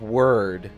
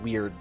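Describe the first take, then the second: First: It is pronounced to rhyme with 'word'. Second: It is pronounced to rhyme with 'weird'. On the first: This is the believed proper pronunciation. "So I think it's Web of Word" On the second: This is how the spelling looks to be read. "but it looks like Web of Weird to me"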